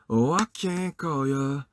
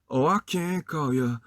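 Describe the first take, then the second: Both takes have the same delivery.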